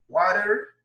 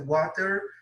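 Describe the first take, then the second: First: Said with an American accent, T sounding like R. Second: Said with a British accent and a clear T. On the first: "De modo americano seria o quê? ... A tendência do americano é puxar o T para R" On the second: "eu estou pronunciando aqui de modo britânico"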